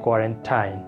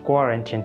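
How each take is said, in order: First: It is said the common Bangladeshi way. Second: It is said the standard dictionary way. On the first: The speaker calls it wrong. "আমরা বাংলাদেশিরা বেশিরভাগ মানুষ ... উচ্চারণ করতেছি" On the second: The speaker calls it right. "the correct pronunciation of this word is quarantine"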